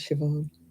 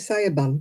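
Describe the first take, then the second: First: The name is said with its Irish pronunciation. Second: The name is sounded out letter by letter. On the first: The speaker calls it right. "actually, it's Siobhan" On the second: The speaker calls it wrong. "the number of people who used to say"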